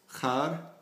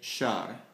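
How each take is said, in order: First: The word begins with a rough kh sound. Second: The word begins with a soft sh sound. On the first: "instead of having the kh sound" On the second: "in Helmand and Kandahar, they say it shar"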